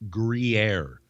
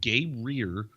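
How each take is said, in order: First: It sounds like groo-yair. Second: It sounds like gay-rear. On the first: The speaker calls it right. "you pronounce this a Gruyere" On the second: The speaker calls it wrong.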